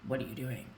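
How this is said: It sounds accusatory and negative.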